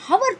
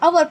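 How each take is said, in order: First: The word begins with an audible h sound. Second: The word begins with a vowel, h silent. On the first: The speaker calls it wrong. "आप हवर तो नहीं पढ़ते हो" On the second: The speaker calls it right. "अवर पढ़ते हो ना, H silent है"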